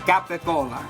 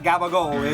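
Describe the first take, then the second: First: It is full, with hard c sounds: capicola. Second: It is clipped, with soft g sounds: gabagool. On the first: The speaker calls it right. "it's capicola" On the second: The speaker calls it wrong. "It's not gabagool"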